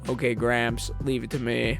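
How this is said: It is said in a flat monotone.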